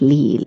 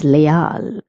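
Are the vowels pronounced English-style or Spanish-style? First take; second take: English; Spanish. First: The vowels are pronounced the English way. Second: The vowels are pronounced the Spanish way. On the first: The speaker calls it wrong. "because they're doing the English pronunciation, but it is not leal" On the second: The speaker calls it right. "it is leal"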